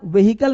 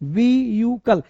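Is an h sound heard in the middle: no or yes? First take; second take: yes; no. First: It is said in three parts with an h. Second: It is said in two parts without an h. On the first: The speaker calls it wrong. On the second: The speaker calls it right.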